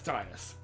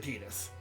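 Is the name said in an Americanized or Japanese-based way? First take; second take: Americanized; Japanese-based. First: The name is said in an Americanized way. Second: The name is said in a Japanese-based way. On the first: "when I was younger, when the game first came out, I pronounced it as Titus" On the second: "I heard the pronunciation in Kingdom Hearts and Dissidia ... So I switched to Titus"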